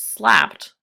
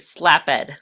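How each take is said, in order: First: The ending blends in, making one syllable. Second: The ending is said as a separate syllable. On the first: The speaker calls it right. "as native speakers, we would say a word such as slapped" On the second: The speaker calls it wrong. "mispronounce every E D as a separate syllable"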